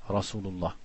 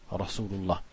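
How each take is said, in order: Both takes have the same delivery.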